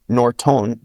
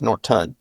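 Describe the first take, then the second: First: Norton said with a full clear O in the last syllable, nor-tone; careful full vowels. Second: Norton with the last vowel cut to a schwa, nor-tn; reduced vowel. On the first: Teacher showing her last name to a learner, careful full vowels. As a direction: spell out Norton slowly, both vowels full. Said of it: "becomes Norton". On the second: Teacher showing how her last name shrinks in speech, relaxed reduced vowel. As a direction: say Norton quickly, the second vowel swallowed to uh. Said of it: "It's just a uh sound". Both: Shown as a demonstration.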